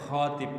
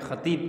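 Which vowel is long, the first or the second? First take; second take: first; second. First: The first vowel is long. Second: The second vowel is long. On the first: It means a man who proposes marriage. The speaker calls it wrong. "ini biasa ada salah ucap ini. ... Ah ini bahaya" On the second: It means the one who gives the sermon. The speaker calls it right. "Yang benar ... toknya yang panjang"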